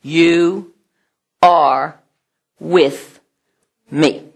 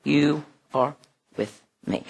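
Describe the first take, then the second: First: "You are with me" slowly, each word apart; "You are with me" spaced word by word. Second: "You are with me" lower and far softer; "You are with me" repeated in a hush; hushed echo. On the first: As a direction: lay out "You are with me" with long pauses. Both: Shown as a demonstration. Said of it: "this one is".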